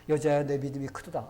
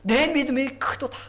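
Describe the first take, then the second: First: Said in the usual way. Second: Loud, high-pitched, amazed proclamation; ringing cry of wonder; exclaiming in admiration. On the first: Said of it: "안 했어요". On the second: Shown as a demonstration. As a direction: marvel out loud at great faith. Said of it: "거기 감탄사가 있어".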